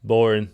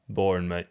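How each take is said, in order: First: Loud, mock-bored jeer; loud boring. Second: Said in the usual way. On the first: Real, not acted. Host heckling the AI's dull question, loud jeer.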